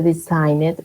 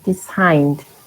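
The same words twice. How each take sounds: First: The ending is not a plain D sound. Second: The ending is a plain D sound. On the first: The speaker calls it wrong. "Not designed, no" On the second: The speaker calls it right. "Designed with D"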